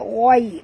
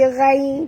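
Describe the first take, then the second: First: The gh sound is heavy and thick. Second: The gh sound is light and thin. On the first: The speaker calls it right. "huruf ghain tebal" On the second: The speaker calls it wrong. "jangan baca ghai"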